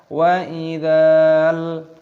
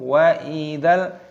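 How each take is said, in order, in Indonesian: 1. Vokal sebelum L dipanjangkan. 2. Langsung masuk ke L yang mati. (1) "Jangan dibaca wa idzal, bukan seperti itu" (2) "langsung matikan lamnya"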